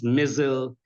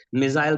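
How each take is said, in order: First: "missile" reduced to MISS-ul; American pronunciation. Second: "Missile" ending like "aisle", MISS-ile; British pronunciation. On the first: Showing what the word becomes, American pronunciation. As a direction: swallow the second vowel of "missile", like missal. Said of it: "They tend to speak in American accent". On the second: Showing what American influence changes, British pronunciation. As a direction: give "Missile" a full long-i second syllable. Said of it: "in British or in neutral". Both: Shown as a demonstration.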